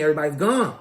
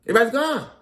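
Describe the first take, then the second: First: Said in the usual way. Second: Everybody's gone said higher and louder, hitting gone; emphatic repeat. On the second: Retold or imitated. Comedian stressing to viewers that Everybody's gone, pitched up and louder.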